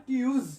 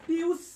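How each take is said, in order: First: টিউজ ending in a buzzed z, "tyooz"; loud corrective "tyooz" for টিউজ; correct z sound. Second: টিউস ending in a hissed s, "tyoos"; wrong s sound. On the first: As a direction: voice the final z of টিউজ. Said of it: "বর্গীয় জ হবে". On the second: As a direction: end টিউস on an unvoiced s. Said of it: "দন্তস্ব হবে না". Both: Shown as a demonstration.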